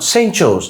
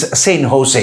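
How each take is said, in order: First: The name begins with a J sound. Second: The name begins with an H sound. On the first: The speaker calls it wrong. "So it's not Saint Joe's" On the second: The speaker calls it right. "when you pronounce the letter J, it is pronounced as H"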